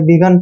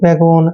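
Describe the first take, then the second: First: The last vowel sounds like 'uh'. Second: The last vowel sounds like 'oh'. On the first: The speaker calls it right. "बिगन पढ़ना है" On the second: The speaker calls it wrong. "ऐसे नहीं पढ़ेंगे"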